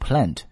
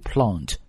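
First: The word is said in an American accent. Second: The word is said in a British accent. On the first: "that's American English" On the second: "but for British accent, you're going to do plant"

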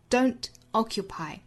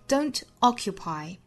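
Both takes have the same delivery.

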